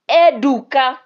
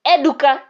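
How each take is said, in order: First: Louder, higher angry call, held longer; angry call again. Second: Louder angry call of the name. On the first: Prince calling his guard, angry now. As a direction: call him once more, losing patience. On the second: Prince calling his guard angrily. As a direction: call him sharply, annoyed. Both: A narrator's reading. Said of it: "the prince said angrily".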